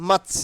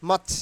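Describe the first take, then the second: The two takes are said the same way.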